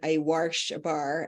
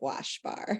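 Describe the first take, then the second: First: It is said Baltimore style, like warsh. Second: It is said plainly, without an added R.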